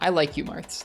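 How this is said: It is said clearly, with crisp pronunciation. The speaker calls it right. "More clear pronunciation there"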